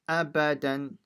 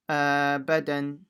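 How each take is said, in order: First: All vowels are kept short. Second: Some vowels are stretched out long. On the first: The speaker calls it right. "so it's abadan" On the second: The speaker calls it wrong. "don't say abadan"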